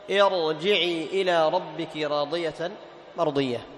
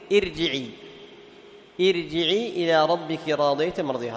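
First: ارجعي recited slowly with a thick, emphatic ra; heavy ra, correct. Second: ارجعي with the ra thinned, said with a laugh; mock the mistake: ارجعي with a light ra; thin ra, wrong. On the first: Teacher recites the verse correctly for students. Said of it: "ما تقول ار". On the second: Teacher mimics the students' wrong thin ra with a laugh. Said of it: "هذا خطأ". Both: Shown as a demonstration.

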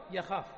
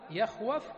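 First: يخاف as the result after the change; changed form يخاف. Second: يخوف said in full with its waw, rising at the end; يخوف as the underlying form, before the change; original form يخوف. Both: Shown as a demonstration. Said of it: "تقلبها هكذا".

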